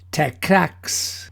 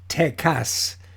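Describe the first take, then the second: First: The word ends with a ks sound. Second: The word ends with an s sound. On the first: The speaker calls it wrong. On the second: The speaker calls it right. "that's pronounced Tecas. In Spanish, you don't pronounce the X"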